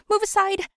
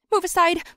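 First: Even higher, loud desperate yell. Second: High, loud panicked yell. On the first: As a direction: shove past everyone with your voice. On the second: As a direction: shout to clear the way. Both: Acted. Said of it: "I yelled to a passerby".

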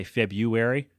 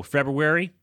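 First: February said as feb-yoo-ary, without the r; common mistake. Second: February said with the r, feb-roo-ary; correct way. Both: Shown as a demonstration. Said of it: "They say February".

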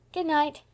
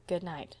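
First: Put-on high, lively little-boy sign-off; cheerful child. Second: Tired reply. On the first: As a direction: call it out cheerfully as a small boy. Boy's cheerful good night. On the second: Acted. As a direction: murmur it wearily to a child. Tired woman's answering good night.

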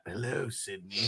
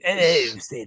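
First: Low killer voice. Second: Deep killer voice. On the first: Quoting killer's phone line. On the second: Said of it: "like, a British accent". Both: Retold or imitated.

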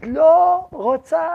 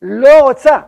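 First: Drawn-out higher roaring no; slow roar. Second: A loud, gut-level roar of refusal. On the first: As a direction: stretch it into a long slow roar. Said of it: "שואגת, לא רוצה". (שאגה איטית ונמשכת) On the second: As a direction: roar it out as the soul bursting free. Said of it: "שאגה עצומה". (שאגה רועמת של סירוב) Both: Retold or imitated.

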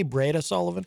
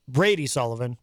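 First: "Breda" ending in an uh sound; mispronounced name. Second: Said in the usual way. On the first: Shown as a demonstration. Host checks his own slip, saying "Breda" with an uh ending. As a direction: say "Breda" with uh in place of the final ee. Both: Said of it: "What did I say?".

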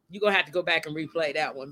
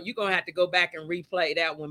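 First: Laughing. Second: Said in the usual way. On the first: Real, not acted. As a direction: repeat it quickly with a laugh running through. Repeats it, laughing at herself.

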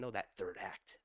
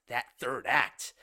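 First: Said in the usual way. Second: "that third act" louder and slowed right down; stress on third act. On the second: Real, not acted. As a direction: lean hard on "third act". Repeats the phrase for emphasis.

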